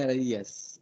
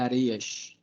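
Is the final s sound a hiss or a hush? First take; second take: hiss; hush. First: The final s is a plain hissing sound. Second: The final s is a hushing sh sound. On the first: The speaker calls it wrong. "não é areias" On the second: The speaker calls it right. "é um chiado"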